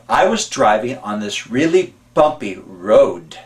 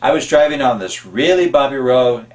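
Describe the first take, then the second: First: The final D of road is clearly sounded. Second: The final D of road is barely heard. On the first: The speaker calls it right. "Instead of" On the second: The speaker calls it wrong. "we don't enunciate the D or the T"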